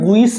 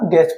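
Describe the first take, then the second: First: The u is sounded before the vowel. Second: The u is silent, only the e vowel. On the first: The speaker calls it wrong. "तो ये गुइस नहीं है" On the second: The speaker calls it right. "यू है इसकी sound नहीं है, सिर्फ ई की साउंड है"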